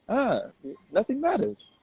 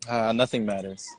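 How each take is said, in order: First: It sounds light, said with a smile. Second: It sounds dismissive, as if not caring.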